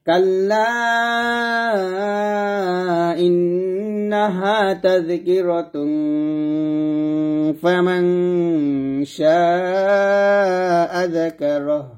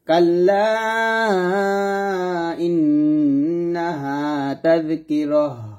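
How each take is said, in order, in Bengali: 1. এটা faman-এ চলে যায়, নাসিক্য -tun দিয়ে। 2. tazkirah-র পরে থামে, h ধ্বনিতে শেষ হয়। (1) "যদি মিল করে পড়তাম ... ইকফা গুন্না আদায় করে পড়তে হয়" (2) "এখানে যদি আমরা থামি তাহলে এই তাটা তো হা সেকেন্ড হয়ে যাবে"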